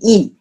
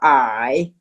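First: The word sounds like 'ee'. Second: The word sounds like English 'eye'. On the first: The speaker calls it right. "actually in the real Chinese pronunciation should be E" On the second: The speaker calls it wrong. "the pronunciation called the I"

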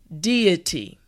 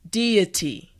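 Both takes have the same delivery.

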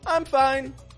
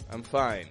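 First: The voice is lively and peaks up. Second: The voice stays flat and low. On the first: The speaker is really fine. The speaker calls it right. "Just peak your tone up" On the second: The speaker is not really fine. The speaker calls it wrong. "if your tone is flat, it comes across as if you're not fine"

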